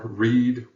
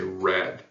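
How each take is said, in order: First: It is pronounced as the present-tense form. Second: It is pronounced as the past-tense form. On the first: The action happens now or habitually. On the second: The action happened in the past.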